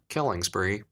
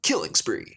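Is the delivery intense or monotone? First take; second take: monotone; intense. First: It is said in a flat, monotone way. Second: It is said with intense, excited energy. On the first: "it doesn't sound as like intense ... so monotone" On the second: "Halo two is like"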